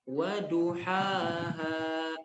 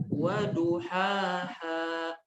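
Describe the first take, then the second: No difference in how they are said.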